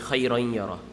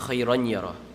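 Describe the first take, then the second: First: The nasal sound is stretched and held longer. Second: The nasal sound is cut short, not stretched. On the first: The speaker calls it right. "we say khayran yarah... it has to have ghunnah though. That's why you have to stretch it" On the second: The speaker calls it wrong. "we don't say khayran yarah"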